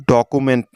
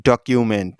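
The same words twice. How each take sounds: First: ডকুমেন্ট with a plain "ku" middle, no y-glide; ডকুমেন্ট with the middle syllable as "koo"; mispronounced ডকুমেন্ট. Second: ডকুমেন্ট with a "kyu" glide in the middle; careful model ডকুমেন্ট, middle syllable like "cue"; correctly pronounced ডকুমেন্ট. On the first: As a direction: say ডকুমেন্ট wrongly, as "do-ku-ment". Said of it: "উচ্চারণটি কিন্তু ডকুমেন্ট না". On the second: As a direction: say ডকুমেন্ট slowly as "dok-yu-ment". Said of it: "উচ্চারণটি হবে ডকুমেন্ট". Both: Shown as a demonstration.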